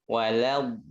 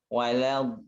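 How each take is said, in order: No difference in how they are said.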